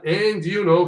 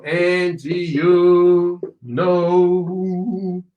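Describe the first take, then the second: First: Said in the usual way. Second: Extremely slow, each word held long; drawn-out model phrase. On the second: Shown as a demonstration. Teacher demonstrating linked words for students, extremely slow. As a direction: stretch "and you know" syllable by syllable.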